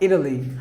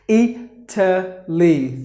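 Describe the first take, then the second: First: The middle consonant sounds like a soft D. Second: The middle consonant is a clear T sound. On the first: "here they would pronounce it like Italy" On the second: "usually it's Italy"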